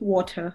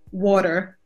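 First: It is said with a British accent. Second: It is said with an American accent. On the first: "in British English we say water" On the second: "in American English you would normally say water"

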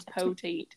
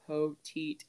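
First: It is said with a strong Texas accent. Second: It is said plainly, without a Texas accent. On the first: The speaker calls it right. "You can't say it without an accent. You have to say" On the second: The speaker calls it wrong. "Because if you try, you're like"

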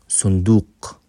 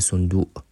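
First: The word is said with a deep q sound. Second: The word is said without the q sound.

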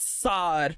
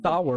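First: The vowel is a flat 'ah' sound. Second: The vowel is a gliding 'ow' sound. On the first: The speaker calls it wrong. "It's not sar" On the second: The speaker calls it right. "sour, right?"

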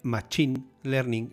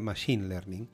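First: Machine is said like the Spanish name Machín. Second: Machine is said with its English pronunciation. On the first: This is how many people commonly say it. The speaker calls it wrong. "mucha gente dice Machine Learning" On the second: This is how it should be said. The speaker calls it right. "en lugar de Machine Learning"

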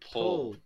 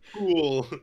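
First: The vowel is short, as in 'put'. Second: The vowel is long, as in 'pool'. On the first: The speaker calls it right. "Say it right" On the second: The speaker calls it wrong. "That's what you're saying"

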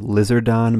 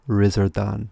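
First: The name begins with an L sound. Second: The name begins with an R sound. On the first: The speaker calls it wrong. "it's spelled Lizardon" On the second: The speaker calls it right. "it's pronounced Rizardon, like that"

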